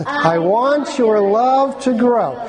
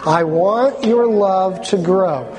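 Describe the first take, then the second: First: Slow, slightly raised group recital; a little louder. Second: Said in the usual way. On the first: Shown as a demonstration. Preacher leading the congregation, a little louder. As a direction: say it a bit louder, drawn out. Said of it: "Can we say it a little louder?". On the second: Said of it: "Let's say it together".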